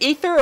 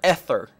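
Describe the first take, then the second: First: The first vowel sounds like 'ee'. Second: The first vowel sounds like 'eh'.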